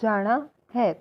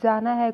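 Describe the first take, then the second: First: It is said with a slightly different Punjabi tone. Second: It is said with a plain Hindi tone.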